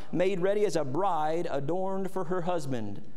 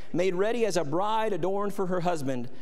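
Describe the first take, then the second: Both takes have the same delivery.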